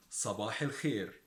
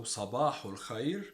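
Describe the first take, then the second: First: صباح الخير as "sabah il-kheer", falling; Egyptian pronunciation. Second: صباح الخير as "sabahu l-khayr", rising; Standard Arabic pronunciation. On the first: Teacher answers with the dialect form, Egyptian pronunciation. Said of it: "we say". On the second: Teacher sets up the contrast, Standard Arabic pronunciation. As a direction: say صباح الخير with "u" and "ay", lifting the end. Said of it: "the pronunciation is quite different". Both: Shown as a demonstration.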